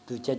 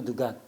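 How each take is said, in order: First: The word has a j sound. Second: The word has a hard g sound.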